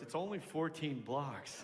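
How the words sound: It is said in a nasty, snide tone. The speaker calls it wrong. "She didn't say a cunty like that"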